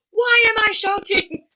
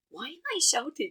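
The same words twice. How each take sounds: First: Loud, high, drawn-out mock yell; passionate shout. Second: Toned-down mock shout, pitched up; self-check question. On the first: Imitating a speaker who gets passionate, mock shout. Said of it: "he get really passionate". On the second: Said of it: "And it's like".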